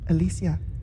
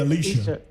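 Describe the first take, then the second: First: The name is said in a Latino way. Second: The name is said in a Black American way. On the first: "when the Latinos said, the Latinas, Alicia"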